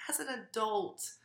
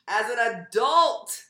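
First: "as an adult" repeated quietly, falling off; softer repeat. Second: "as an adult" slow, louder, higher, stretched out; stress on adult. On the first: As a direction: drop "as an adult" to a softer echo. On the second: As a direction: lean hard on "as an adult" the first time. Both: Real, not acted. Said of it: "repeated for emphasis".

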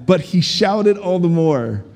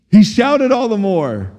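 First: Said in the usual way. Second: "shouted" lifted in pitch and drawn out; slow, punched repeat of "shouted all the more"; emphatic repeat. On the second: Real, not acted. Preacher repeats the favourite verse to the crowd, "shouted" stressed emphatically.

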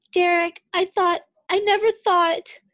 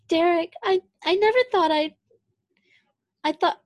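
First: High, loud tearful cry; crying softly. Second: High, breathy tearful voice; crying softly. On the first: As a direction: sob the words out, breaking. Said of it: "crying s-, voice muffled by skin". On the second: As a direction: choke it out through tears. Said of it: "crying softly, crying voice muffled". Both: A narrator's reading.

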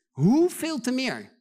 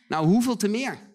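First: Hoeveel drawn out slowly, high and loud; preacher stretching each word of Hoeveel te meer for weight; slow emphatic hoeveel. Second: Said in the usual way. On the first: Shown as a demonstration. Preacher repeating the verse to the congregation, slow and emphatic.

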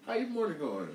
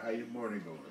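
First: Mock the girl's sweet greeting; high girly mimic. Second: Said in the usual way. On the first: Girl's greeting imitated a second time.

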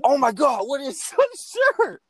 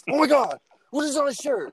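First: High, loud outraged squeal; imitating a friend freaking out over his ruined shirt; angry Steve voice. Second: High, indignant mock outrage; angry Steve again. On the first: Friend imitating Steve's outrage at the stained shirt, high and loud. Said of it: "Angry Steve voice". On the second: Retelling Steve finding the dirty shirt, mock angry and high. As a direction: redo Steve's shocked anger, pitched up. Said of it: "You know, an angry".

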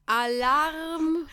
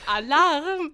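First: Alarm shout. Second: Loud high alarm call; alarm shout. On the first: Retold or imitated. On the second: Shown as a demonstration. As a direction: blare it like a siren.

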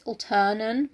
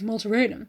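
First: Alternan said as two syllables, ALL-tern-an; Alternan, the right short way; correct place name. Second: Malteranum said as mal-ter-AY-num; Malteranum, wrong and extra-long; mispronounced place name. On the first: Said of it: "I think it's Alternan". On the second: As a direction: stretch Malteranum into four syllables. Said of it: "I know I pronounce it wrong". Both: Shown as a demonstration.

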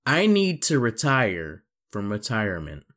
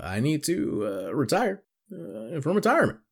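First: Said in the usual way. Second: Halting delivery. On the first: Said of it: "repeats the quote in pieces". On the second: Shown as a demonstration. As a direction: drag it out in halting pieces. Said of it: "halting second take".

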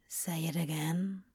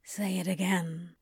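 First: Whispered, soft and close; quieter whisper. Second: Mumbled. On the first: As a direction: breathe it as a plea. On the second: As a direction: mumble it against him. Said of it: "Crowley mumbled". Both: A narrator's reading.

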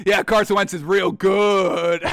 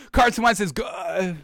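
First: Slow, sarcastic praise for "real good"; slow mocking compliment; ironic. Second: Slow, forced, the words catching in the throat; slow strained attempt at praise; struggling to say it. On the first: Shown as a demonstration. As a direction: say it slowly with heavy irony, not meaning a word. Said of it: "when they come out ironically". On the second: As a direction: fight to get the sentence out, straining. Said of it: "can't even get that word out".

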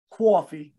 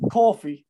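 First: Coffee as "cwaffee", Boston style; tentative Boston vowel on coffee; attempted Boston accent. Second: Said in the usual way. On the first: Shown as a demonstration. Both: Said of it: "Which one sounds better?".

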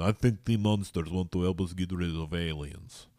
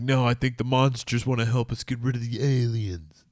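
First: A light mock Russian accent. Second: A raised, hammed-up movie-character line; movie hero line. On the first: Vlogger redoing the movie line in a mock Russian accent. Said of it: "Well, it'd have to be Russian". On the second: Vlogger acting out a monster movie line, hammed-up and raised. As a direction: pitch it like a dramatic film actor.

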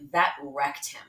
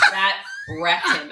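First: Said in the usual way. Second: "That wrecked him" louder and slower, leaning hard on "That"; emphatic repeat. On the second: Retold or imitated. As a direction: drive the point home, slowly. Friend repeats the verdict for emphasis.

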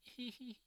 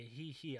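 First: High, soft "hee hee" giggle; a little mock giggle, pitched up. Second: Said in the usual way. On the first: Friend recalling his own laugh at a classmate's antics, little giggle. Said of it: "like, a little giggle from me". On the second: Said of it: "it wasn't even, like".

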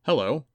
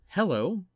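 First: A wary, loud hello; cautious greeting from a boy; guarded. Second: High, rising "hello" after a pause; awkward, higher-pitched hello; sheepish. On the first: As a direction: say it ready to run. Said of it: "His voice was guarded". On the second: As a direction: back off, a little embarrassed. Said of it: "sounded both silly and aggressive". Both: Acted.

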